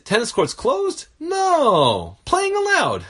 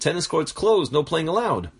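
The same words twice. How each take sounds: First: Closed rises as a question, pause after no. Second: It is read as one flat statement.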